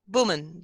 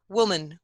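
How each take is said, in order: First: The lips close fully, like a b sound. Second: The lips round but never close fully.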